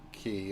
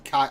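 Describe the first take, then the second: First: The vowel sounds like 'ee'. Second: The vowel sounds like 'eye'. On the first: "It could be Key, Key instead of Kai" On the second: "how does Ranger say it?"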